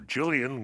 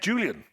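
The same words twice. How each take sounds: First: The name is said in an American accent. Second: The name is said in a British accent.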